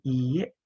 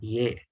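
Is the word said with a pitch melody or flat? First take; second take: melody; flat. First: The word is said with a clear pitch melody. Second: The word is said flat, without pitch movement. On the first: The speaker calls it right. "Ada ada nadanya kan iye" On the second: The speaker calls it wrong. "bukan cuma iye"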